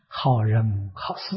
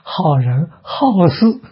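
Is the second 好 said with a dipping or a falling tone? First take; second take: dipping; falling. First: The second 好 has a low dipping tone. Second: The second 好 has a high falling tone. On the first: Good people and good deeds. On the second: Good people who like to meddle in affairs.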